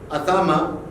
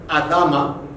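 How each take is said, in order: No difference in how they are said.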